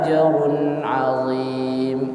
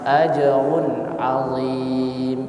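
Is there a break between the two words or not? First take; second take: no break; break. First: The words flow together without a break. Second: The voice stops briefly between the words. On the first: The speaker calls it right. "seharusnya dialirkan" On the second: The speaker calls it wrong.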